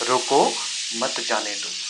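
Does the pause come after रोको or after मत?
after रोको. The pause comes after रोको.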